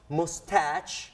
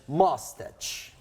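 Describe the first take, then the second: First: It is said with the British pronunciation. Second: It is said with the American pronunciation. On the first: "En británico es más mustache" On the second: "en americano es mustache"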